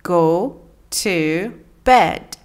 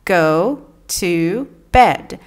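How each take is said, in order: The two takes are said the same way.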